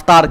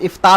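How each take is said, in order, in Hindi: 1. यह शब्द 'a' स्वर से शुरू होता है। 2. यह शब्द 'i' स्वर से शुरू होता है। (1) "अफ्तार कह दे तो वो गलत है" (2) "इफ्तार होना चाहिए बाबे फ़ाल के वज़न पे"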